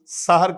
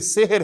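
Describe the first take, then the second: First: The first vowel is an open a sound. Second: The first vowel is a short e sound. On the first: The speaker calls it wrong. "बाज औकात लोग सहर कहते हैं" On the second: The speaker calls it right. "ये सेहर है अरबी में"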